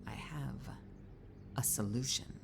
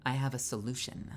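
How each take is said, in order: First: Sly whisper. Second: Said in the usual way. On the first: Pretend. Whispered repetition.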